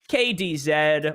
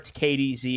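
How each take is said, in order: First: The last letter has a non-American pronunciation. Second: The last letter has an American pronunciation.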